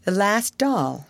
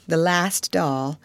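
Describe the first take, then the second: First: Put-on little girl mourning her last doll; mournful. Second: Put-on girl repeating it sadly to herself; mournful echo. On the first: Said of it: "her little mournful voice". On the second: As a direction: let it fade in grief. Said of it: "her little mournful voice had an odd sound".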